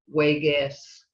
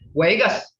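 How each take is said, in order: First: It is said with a plain statement tone. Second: It is said with a commanding tone. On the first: The speaker is the one stopping. "and I'm quitting" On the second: Someone is told to stop doing something. "When you're telling somebody to quit doing something"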